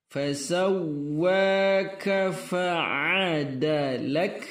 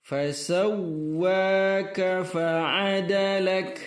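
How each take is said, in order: The two takes are said the same way.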